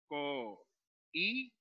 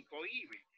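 First: "co-i-be" slowly, with long gaps between syllables; teacher splitting "co-i-be" at the hiatus; separated syllables. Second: Said in the usual way. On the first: Shown as a demonstration. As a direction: sound out "co-i-be" one syllable at a time. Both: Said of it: "por lo tanto hay que separar".

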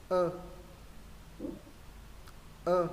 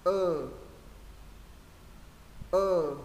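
First: "Ơ" short and relaxed with lowered chin; short ơ, jaw dropped. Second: "Ơ" louder and held, lips stiffened; tense the lips and sustain "Ơ"; long ơ, firm lips. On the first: Teacher reviews first ơ for students, short with jaw lowered. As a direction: drop the jaw for a brief "Ơ". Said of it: "Chữ đầu tiên hạ cầm này". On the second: Teacher reviews second ơ for students, long with firm lips. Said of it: "Chữ thứ hai cứng môi này". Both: Shown as a demonstration.

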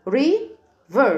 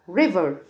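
First: "river" as long ri, pause, ver; split into syllables. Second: Said in the usual way. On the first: Shown as a demonstration. Teacher repeats river for pupils, split in syllables. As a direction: stretch "river" out in two beats. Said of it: "قسمناها ل two". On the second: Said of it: "تاني".

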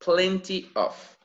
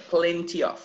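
First: "plenty of" said slowly, word by word; careful pronunciation. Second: "plenty of" run together as one word; linked together. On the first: Teacher modelling "plenty of" for students, careful and separated. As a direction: give "plenty" and "of" each their own space. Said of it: "And the pronunciation, once again". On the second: Teacher showing students "plenty of" goes together, linked. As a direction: link "plenty" straight into "of", with no gap. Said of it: "It's together". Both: Shown as a demonstration.

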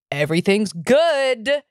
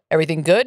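First: Slow answer, stretched on GOOD; retold drawn-out reassurance. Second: Brief checking question in a lightly voiced cop role; retold cop's question. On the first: Boyfriend answering the cops, slow drawn-out reassurance. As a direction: draw out "good" as the reply to police. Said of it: "And he's like". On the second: Cops questioning a man smoking outside, brief mock-official check. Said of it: "And they're like".

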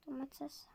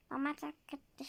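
First: Soft unvoiced whisper. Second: Said in the usual way. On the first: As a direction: breathe the word out. Naming pretend ingredients. (fısıltı)

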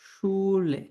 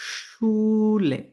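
First: শুলে said again at normal speed with a palatal sh; repeat at normal pace. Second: শুলে said very slowly and higher, with a long palatal sh at the start; palatal sh sound. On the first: German teacher repeating the word for students at normal pace. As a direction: say শুলে once more plainly. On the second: German teacher showing the sh sound to students, slow and high. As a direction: stretch out the sh in শুলে. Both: Shown as a demonstration. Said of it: "আমি তালব্য স্বর উচ্চারণ করবো".

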